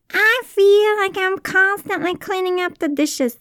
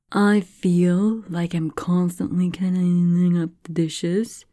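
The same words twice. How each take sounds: First: High, loud mock complaint; odd put-on voice. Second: Said in the usual way. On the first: Shown as a demonstration. Repeating the example in a silly high voice. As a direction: whine it, clearly put on. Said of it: "I don't know why I said it with that voice". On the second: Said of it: "You could also say".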